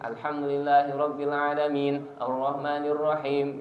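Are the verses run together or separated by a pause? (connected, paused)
paused. A pause separates the verses. "Kalau di qot'i ya minimal harus ada jedanya"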